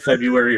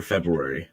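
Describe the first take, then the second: First: February said as FEB-yoo-air-ee, no first R; R dropped. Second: February said as FEB-roo-air-ee, with both Rs; R pronounced. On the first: Host asking guest to judge, R dropped from February. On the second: Host asking guest to judge, R sounded in February. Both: Shown as a demonstration. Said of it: "Is it February or February".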